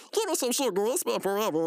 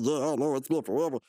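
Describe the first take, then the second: First: High put-on gushing; hug-happy brother. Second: Said in the usual way. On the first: Brother reunited with an old friend, high mock gushing. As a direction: greet an old friend in a pitched-up voice. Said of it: "talking to Mordecai and he said". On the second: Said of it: "And he said".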